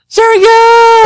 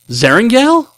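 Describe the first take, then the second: First: The pitch falls at the end like an exclamation. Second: The pitch rises at the end like a question. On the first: It is announced as an exclamation. The speaker calls it right. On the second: It is asked as a question. The speaker calls it wrong.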